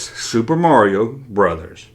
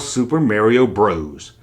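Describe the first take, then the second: First: The last word is said as full 'brothers'. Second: The last word is said as short 'bros'. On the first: The speaker calls it right. "It's Super Mario Brothers" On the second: The speaker calls it wrong. "It's not called Super Mario Bros"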